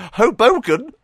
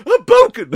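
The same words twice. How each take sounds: First: Hoboken? with a higher, rising, disbelieving tune; incredulous question. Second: A much higher, much louder sneeze-scream of Hoboken; Ryu sneezing shout. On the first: Real, not acted. Youtuber doubting the city name, incredulous rise. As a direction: ask Hoboken as if it can't be real. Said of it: "I swear they're making up these names". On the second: Retold or imitated. Ryu sneezing while shouting Hadouken, shrieked sneeze-shout. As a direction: explode Hoboken like a sneeze mid-attack. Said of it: "but he goes".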